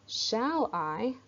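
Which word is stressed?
shall. The stress falls on the word shall. The speaker is in doubt. The speaker calls it wrong. "So it's not shall I"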